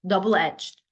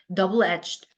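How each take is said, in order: No difference in how they are said.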